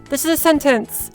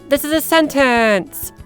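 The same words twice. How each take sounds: First: The words are said at a natural length. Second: The words are stretched out long and exaggerated. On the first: The speaker calls it right. "slowly chop it down until it sounds more natural" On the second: The speaker calls it wrong. "that's super exaggerated. No one talks like that"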